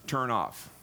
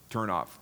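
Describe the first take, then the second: First: Slow explanation. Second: Said in the usual way. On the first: Shown as a demonstration. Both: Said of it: "more literally means".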